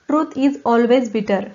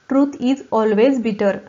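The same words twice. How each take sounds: Both takes have the same delivery.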